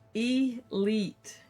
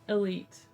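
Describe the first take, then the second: First: The first vowel sounds like 'ee'. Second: The first vowel sounds like 'uh', with a soft T. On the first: "sounding like E as in C, followed by leet" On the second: "the first vowel can sound like uh, and the final T might be softened"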